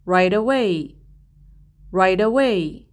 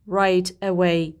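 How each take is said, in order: First: "right away" run together as "rai-da-way", t flapped into away; linked words. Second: "right away" with each word said apart, t fully released; separated words. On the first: Teacher showing how "right away" links together. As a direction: glide "right away" into one smooth word. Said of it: "به هم وصلشون می کنم". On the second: Teacher showing the unlinked way to say "right away". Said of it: "من این دوتا کلمه رو جدا جدا تلفظ نمی کنم". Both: Shown as a demonstration.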